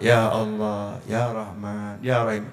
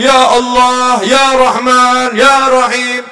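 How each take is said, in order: First: Much softer and lower, listless; limp prayer. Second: Loud, higher, slow fervent calling; bold prayer. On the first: Preacher mocking a limp prayer, faint and low. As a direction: mumble the names like a weary beggar. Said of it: "Kayak duit sak kepok". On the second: Preacher showing the crowd a bold prayer, loud. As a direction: call the names with full force. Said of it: "Jangan disuruh baca Asmaul Husna". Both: Shown as a demonstration.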